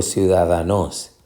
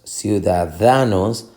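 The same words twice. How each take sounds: First: Ciudadanos wrongly stressed on final NOS; stress on last syllable. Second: Ciudadanos stressed on DA before nos; stress on penultimate syllable. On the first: Teacher offering a wrong option, last-syllable stress on ciudadanos. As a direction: shift stress to the end: ciu-da-da-NÓS. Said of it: "o ciudadanos". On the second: Teacher testing stress options, penultimate stress on ciudadanos. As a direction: slowly hit ciu-da-DA-nos. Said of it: "Decimos ciudadanos". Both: Shown as a demonstration.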